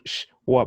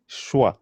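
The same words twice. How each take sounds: First: "shwa" split into sh, then wa; split syllable. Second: "shwa" joined as one syllable. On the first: Teacher showing how not to say it, split apart. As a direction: separate the sh from the wa in "shwa". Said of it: "I was splitting them". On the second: Teacher showing the right way, sh and wa combined. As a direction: run sh straight into wa in "shwa". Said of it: "It's one syllable". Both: Shown as a demonstration.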